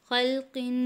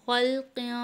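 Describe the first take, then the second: No difference in how they are said.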